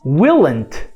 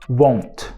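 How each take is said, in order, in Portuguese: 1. É contraído mantendo a vogal de will. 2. É contraído com a vogal alterada. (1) "E se a gente reduzir" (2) "Não"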